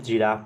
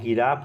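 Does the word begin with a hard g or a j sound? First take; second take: j sound; hard g. First: The word begins with a soft j sound. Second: The word begins with a hard g sound. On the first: The speaker calls it right. "जी को ज पढ़ेंगे" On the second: The speaker calls it wrong. "गिराफ नहीं पढ़ेंगे"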